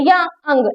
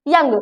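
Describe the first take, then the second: First: The word is stretched into two syllables. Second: The word is said quickly as one syllable. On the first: The speaker calls it wrong. "ऐसे नहीं बोलते" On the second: The speaker calls it right. "सीधा बोलते हैं"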